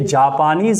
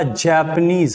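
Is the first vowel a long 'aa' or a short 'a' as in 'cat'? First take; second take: long aa; short a. First: The first vowel is a long 'aa' sound. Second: The first vowel is a short 'a' as in 'cat'. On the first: The speaker calls it wrong. "ये जापानीज नहीं होगा" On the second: The speaker calls it right. "जैपनीज होगा"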